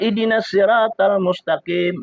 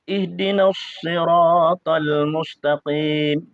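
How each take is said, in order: First: The s in sirat is light and plain. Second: The s in sirat is heavy and emphatic. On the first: The speaker calls it wrong. "itu sin, bukan sod" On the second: The speaker calls it right. "Tapi itu bacanya kan sod"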